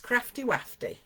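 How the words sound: It is said in a northern English accent. The speaker calls it right. "You need a northern accent"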